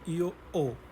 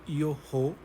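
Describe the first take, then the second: First: The h at the start of ho is silent. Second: The h at the start of ho is audible. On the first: The speaker calls it right. "we say io o" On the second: The speaker calls it wrong. "we don't say io ho"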